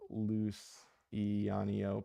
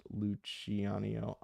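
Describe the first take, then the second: First: Luciano with an S sound, loo-see-ah-nio; wrong pronunciation. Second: Luciano with a CH sound, looch-ee-ah-nio; corrected pronunciation. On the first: Host showing his mistake, slowly saying Luciano with an S. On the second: Host reading a correction, slowly saying Luciano with CH. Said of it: "pronounced Luciano". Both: Shown as a demonstration.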